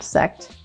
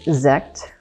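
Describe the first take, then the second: First: The word begins with a hissing S sound. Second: The word begins with a buzzing Z sound. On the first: The speaker calls it wrong. "the S sound, not sect" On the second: The speaker calls it right. "with the Z sound"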